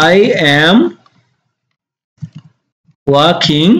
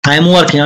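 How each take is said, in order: First: Long pauses between I, am and working; word by word. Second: Said in the usual way. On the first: Shown as a demonstration. Teacher building the sentence for learners, word by word. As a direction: spell out "I am working" one slow word at a time.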